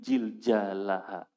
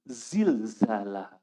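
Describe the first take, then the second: First: The z sounds are replaced by j sounds. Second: The consonants are said with z sounds. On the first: The speaker calls it wrong. "Semuanya dihantam sama dia huruf jim semuanya" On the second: The speaker calls it right. "Zulzilatil pakai zai"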